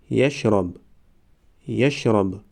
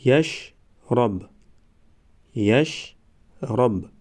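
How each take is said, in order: First: Said in the usual way. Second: Slow, syllables held and separated; slow syllable reading. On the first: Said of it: "به مثل خوانش سوم و چهارم". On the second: Shown as a demonstration. Teacher models first readings for learners, slow syllable by syllable. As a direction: sound it out for learners, pausing between syllables. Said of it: "بار یکم و دویم آهسته".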